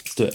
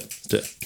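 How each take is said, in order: First: Said in the usual way. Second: Breathy whispered echo. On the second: Real, not acted. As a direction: whisper it to yourself. Repeats it under his breath.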